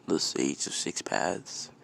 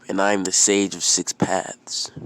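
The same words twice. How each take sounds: First: SAGE OF SIX PATHS slow, rising into a question; puzzled echo. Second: Loud, proud sage announcement; acted proclamation, statement tune; grand self-introduction. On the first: Acted. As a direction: repeat Sage of Six Paths slowly, wondering. Boy echoes the title, wondering. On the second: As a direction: declare your title firmly. Old sage introduces himself.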